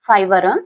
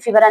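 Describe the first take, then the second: First: The first vowel is an 'eye' sound. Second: The first vowel is a short 'i' sound. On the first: The speaker calls it right. "Real pronunciation" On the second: The speaker calls it wrong.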